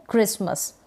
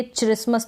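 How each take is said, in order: First: क्रिसमस with a hard k sound at the start, krismus; correct reading. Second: क्रिसमस said with a ch sound at the start, chrismus; wrong reading. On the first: Teacher giving students the correct reading, clearly. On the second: Teacher showing students the reading to avoid, clearly. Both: Shown as a demonstration. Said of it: "तो नहीं पढ़ सकते".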